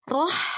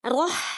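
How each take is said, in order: No difference in how they are said.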